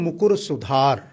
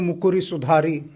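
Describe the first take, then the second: First: The words end without a final short vowel. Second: The words end with an added short vowel. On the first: The speaker calls it right. "उसका लोप हो जाता है" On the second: The speaker calls it wrong. "लोग गाते हैं ... वो शुद्ध उच्चारण नहीं है"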